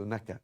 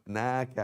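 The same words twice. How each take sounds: First: "نك" with a brief a; short vowel. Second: "ناك" with the aa held long; long vowel. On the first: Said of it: "ناك as opposed to نك". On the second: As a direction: stretch the alif in "ناك". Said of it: "as opposed to نك". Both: Shown as a demonstration.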